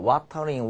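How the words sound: It is said in a British accent. "물론 이제 영국식 발음 뭐야?"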